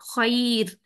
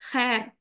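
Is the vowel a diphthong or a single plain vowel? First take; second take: diphthong; plain vowel. First: The vowel glides softly from 'a' to 'i'. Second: The vowel is a single flat 'ae' sound. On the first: This is the Arabic recitation pronunciation. "आई की साउंड लेकर आएंगे" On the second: This is the everyday Urdu pronunciation. "Urdu लैंग्वेज के हवाले से हम इस वर्ड को कहते हैं खैर"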